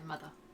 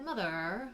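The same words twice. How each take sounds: First: The final R sound is dropped. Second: The final R sound is pronounced. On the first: "Didn't stick, obviously, because now I just say mother" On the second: "I went through this stage of calling her mother. ... pronouncing out R's"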